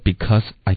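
There is a break between 'because' and 'I'. The speaker calls it wrong. "刚刚分开了，说because I quit，这个就断了"

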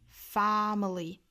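The first vowel is opened with the jaw dropped. "英式发法有可能会把它发成一个上下开口度更大的一个 a"

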